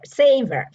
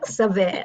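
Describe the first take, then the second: First: The word is pronounced the American English way. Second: The word is pronounced the French way. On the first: The speaker calls it right. "so savor" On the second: The speaker calls it wrong. "I thought it was French"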